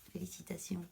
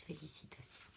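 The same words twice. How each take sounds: First: Said in the usual way. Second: Soft whispered "Félicitations"; "Félicitations" barely heard, whispered. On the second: Real, not acted. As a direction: breathe "Félicitations" without voice, much softer. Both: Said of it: "De quoi?".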